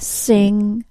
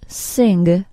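First: The word ends in a plain NG sound. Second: The word ends with an added hard G. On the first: The speaker calls it right. "Say sing" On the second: The speaker calls it wrong. "accidental G sound added to the NG sound"

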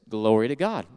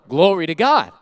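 First: It is said at a calm, normal volume. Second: It is said a little louder, with excitement.

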